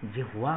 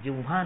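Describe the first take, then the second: First: जिह्वा said as "जिह्-वा", with the h sounded before v; the right way, जिह्वा with a clear h; correct pronunciation. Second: जिह्वा said as "जिव्वा", with a doubled v and no h; the wrong way, जिह्वा as "जिव्वा"; wrong pronunciation. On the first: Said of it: "जिह्वा होती है". (जिह्वा का शुद्ध उच्चारण, "जिह्-वा") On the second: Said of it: "जिह्वा नहीं होती है". (जिह्वा का गलत उच्चारण, "जिव्वा") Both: Shown as a demonstration.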